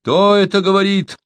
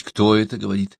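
First: High, anxious challenge; storyteller voicing a worried sentry; alarmed. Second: Said in the usual way. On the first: A narrator's reading. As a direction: call out the question in alarm. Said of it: "раздался встревоженный голос".

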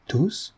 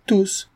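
First: High, rising soft query; hopeful, hushed double-check; astonished question. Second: High, falling, decisive answer; crisp final word; firm confirmation. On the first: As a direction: ask it in disbelief. Heirs ask for confirmation. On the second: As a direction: confirm it without a doubt. Notary confirms all inherit. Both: A narrator's reading.

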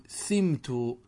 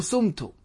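First: سمت as slow "simtu", i after the seen; kasra on first letter. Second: سمت as slow "sumtu", u after the seen; forbidden damma. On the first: Teacher models the passive for students, سمت said slowly as "simtu". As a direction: draw out سمت with an i, "SIM-tu". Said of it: "بكسر الفاء". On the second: Teacher warns students off the damma, سمت said "sumtu". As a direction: say سمت with a u, "SUM-tu". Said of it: "ولا يجوز الضم". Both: Shown as a demonstration.

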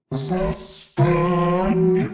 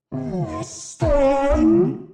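First: Slow, soft guttural demonic call; guttural demon cry. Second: Higher demonic summons, rising; rising demon cry. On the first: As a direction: summon from the depths. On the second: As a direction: call the dead up, pitch climbing. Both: Acted. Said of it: "гортанно прокричал демон".

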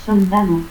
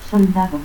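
First: Soldado as "soldalo". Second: Said in the usual way. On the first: Shown as a demonstration. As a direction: turn the last D of Soldado into L. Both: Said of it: "confusión de D y L".

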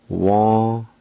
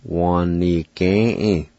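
First: Said in the usual way. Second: Wa-ni-ge-e drawn out slowly, every syllable clear; slow careful pronunciation. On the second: Shown as a demonstration. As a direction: stretch Wa-ni-ge-e for the learner. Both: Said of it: "pronounce these words".

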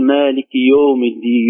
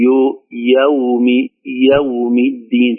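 First: Slow مالك يوم الدين with يوم said "yom"; yawm flattened to yom. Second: Slow يوم الدين with يوم said "ya-wm"; clear diphthong yawm. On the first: Teacher showing the error, يوم said yom. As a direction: round يوم into a plain long o. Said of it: "لا نقول". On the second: Teacher correcting, يوم with fatha then still waw. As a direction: open يوم on a, then close to w. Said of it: "فتحة الياء وسكون الواو". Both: Shown as a demonstration.

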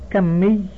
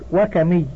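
First: كمي with a doubled m, kam-mee; doubled consonant. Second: وكمي with a single short m, wa-ka-mee; light single m in وكمي; undoubled consonant. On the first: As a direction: hold the m in كمي, kammī. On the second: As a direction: say وكمي as wa-kamī, no held m. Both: Shown as a demonstration. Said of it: "جاز تضعيفه وعدمه".

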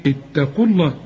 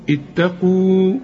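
First: اتقوا الله linked as one, no waw heard; waw dropped when joined. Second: اتقوا said slowly with the final waw held; waw kept at a pause. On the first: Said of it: "إنما عند الوصل تقول إيه". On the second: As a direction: stop on اتقوا and keep the waw. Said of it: "وتثبت إذا وقفت تقول". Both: Shown as a demonstration.

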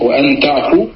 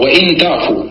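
First: وأن تعفوا with وأن said "wa-an"; fatha on the hamza. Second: وإن تعفوا with وإن said "wa-in"; kasra on the hamza. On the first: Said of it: "بفتح ال". (انطق وأن تعفوا بفتح همزة وأن) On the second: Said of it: "نعم، عندي بالكسر". (انطق وإن تعفوا بكسر همزة وإن) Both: Shown as a demonstration.

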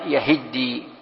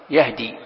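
First: يهدي as yahiddi, i after h, doubled d; doubled-d reading. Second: يهدي as yahdi, silent-vowel h and single d; lightened reading. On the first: Teacher showing another reading to students, yahiddi for يهدي. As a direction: stretch يهدي out with a held double dal. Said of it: "وفي قراءة ثانية". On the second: Teacher showing the second reading, light yahdi for يهدي. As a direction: say يهدي lightly, h straight into one short d. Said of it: "قرئ بالتخفيف". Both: Shown as a demonstration.

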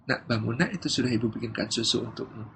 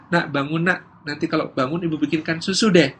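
First: Soft, lower wake-up; gentle mother. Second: Lightly acted wake-up with an offer; ordinary-volume coaxing of a sleeping child; bargaining mother. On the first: Acted. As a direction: quietly rouse a child with reassurance. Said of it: "Beda dengan yang kedua". (ibu membangunkan dengan suara lembut) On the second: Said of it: "Yang pertama". (ibu membujuk anak bangun)

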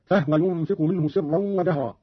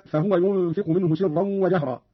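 First: فهو said "fahwa", no vowel on the h; silent-vowel ha. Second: Said in the usual way. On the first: Shown as a demonstration. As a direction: close the first syllable of فهو on h, "fah-wa". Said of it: "بإسكان الهاء هكذا". (إسكان الهاء في فهو) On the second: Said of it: "قرأ قالون بإسكان الهاء".

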